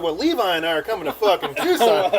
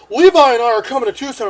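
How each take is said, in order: First: Amused repeat in the usual voice; incredulous echo. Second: Put-on loud, raised, eager drunken declaration; drunk announcing. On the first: Retold or imitated. Seatmate hearing himself included in the plan, amused disbelief. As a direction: echo it in disbelief, half laughing. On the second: Drunk man announcing the trip to his ex, loud declaration. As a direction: proclaim it into the phone.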